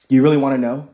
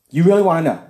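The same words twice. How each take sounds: First: Said in the usual way. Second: Louder, pressing repeat; louder insistence. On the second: Retold or imitated. Pressing the stranger in the truck for an answer, louder. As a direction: push the question harder.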